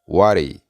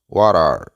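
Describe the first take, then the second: First: The two words run together as one word. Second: Both words are said fully and separately. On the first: This is the informal way. "vamos a utilizar la manera informal" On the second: This is the formal way. "La manera formal es"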